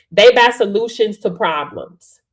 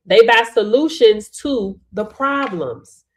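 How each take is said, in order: First: Said in the usual way. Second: "They buy solutions to the problems" said slowly, each word weighted; slow emphatic repeat. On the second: Shown as a demonstration. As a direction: spell it out slowly, leaning on "solutions".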